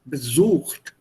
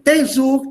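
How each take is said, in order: First: The stress is on the second syllable. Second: The stress is on the first syllable. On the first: The speaker calls it right. "sondern besucht. The stress is here" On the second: The speaker calls it wrong. "You don't say besucht"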